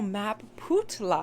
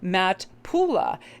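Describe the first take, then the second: First: The name is said as Map Putla. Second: The name is said as Matt Pula. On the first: The speaker calls it right. "Oh, Map Putla" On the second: The speaker calls it wrong. "I wanted to say Matt Pula"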